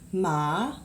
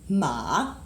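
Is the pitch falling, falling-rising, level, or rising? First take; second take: rising; falling-rising. First: The pitch rises from low to high. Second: The pitch dips low then rises. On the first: "Second tone is this line that goes up" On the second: "this line that goes down and up"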